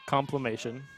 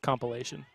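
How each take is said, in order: First: An 'm' sound comes before the '-ation' ending. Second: An 'l' sound comes before the '-ation' ending. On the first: The speaker calls it wrong. "It's not how you say it" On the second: The speaker calls it right. "It's a compilation"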